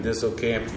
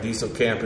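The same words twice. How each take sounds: First: Disselkamp said DISS-el-kamp; short I variant. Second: Dieselkamp said DEE-sel-kamp; long EE variant. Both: Shown as a demonstration. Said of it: "don't know how to pronounce it".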